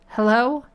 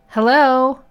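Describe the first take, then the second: First: It is said a little louder. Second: It is said in a loud voice.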